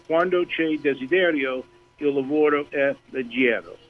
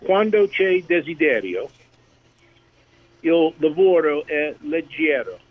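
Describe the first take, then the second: First: Smoother repeat of "Quando c'è desiderio, il lavoro è leggero"; Italian proverb. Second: Careful Italian, "Quando c'è desiderio" said slowly; Italian proverb. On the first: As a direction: say "leggero" as le-JEH-ro, flowing. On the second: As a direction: spell out "leggero" the Italian way. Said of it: "so this will be a little test". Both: Shown as a demonstration.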